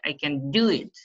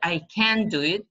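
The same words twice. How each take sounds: First: The word can is unstressed. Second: The word can is stressed. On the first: The speaker calls it right. "we don't uh, stress the word can" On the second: The speaker calls it wrong. "some students pronounce it"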